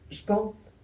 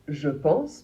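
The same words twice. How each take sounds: First: The vowel of je is dropped. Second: The vowel of je is fully pronounced. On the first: "on a tendance à ne pas prononcer le E de je" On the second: "au lieu de dire"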